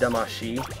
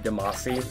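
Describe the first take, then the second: First: The middle consonant is an 'sh' sound. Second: The middle consonant is an 's' sound. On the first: This is the original pronunciation. "I believe it's actually pronounced Damashi" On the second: This is how it was said in childhood. "when I was growing up as a kid, I always said Damacy"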